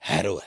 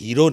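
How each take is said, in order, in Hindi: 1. पहले अक्षर में खुला 'ai' स्वर है। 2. पहले अक्षर में लंबी 'ee' स्वर है। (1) "हैरो है" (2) "अंग्रेजी का लफ्ज हीरो नहीं है"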